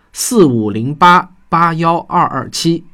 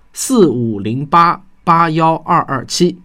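No difference in how they are said.

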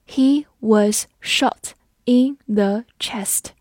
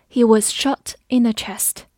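First: Very slow, every word set apart; slow read-along. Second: Said in the usual way. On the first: Shown as a demonstration. Teacher leading learners through the example sentence, slowly. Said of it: "我们慢慢来读".

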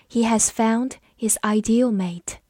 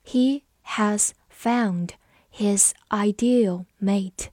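First: Said in the usual way. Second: Slow, each word set apart; slow read-along. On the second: Shown as a demonstration. Teacher modelling the ideal mate sentence, slow read-along. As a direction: dictate it slowly to learners. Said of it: "好，我们慢读一遍".

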